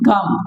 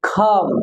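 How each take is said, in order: First: The first consonant is a plain k. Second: The first consonant is an aspirated k. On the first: The speaker calls it wrong. "সাধারণত বলে থাকে কাম" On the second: The speaker calls it right. "Right pronounce word খাম"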